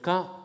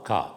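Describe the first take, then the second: First: The word is said on a high tone. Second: The word is said on a low tone. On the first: It means dirt or garbage. "ton haut" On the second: It means soon. "avec un ton grave"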